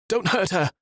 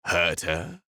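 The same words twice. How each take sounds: First: High, loud, desperate plea; frightened plea. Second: Mocking echo. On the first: Acted. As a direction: scream it in terror. Peter pleads. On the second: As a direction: toss the words back lazily. Renaud mocks the plea.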